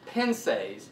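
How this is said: It is said with a rural American pronunciation.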